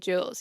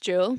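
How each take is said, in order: First: The name is said with an English pronunciation. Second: The name is said with a French pronunciation. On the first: The speaker calls it wrong. "in Irish, we would like say Jules, you know, in English" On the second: The speaker calls it right.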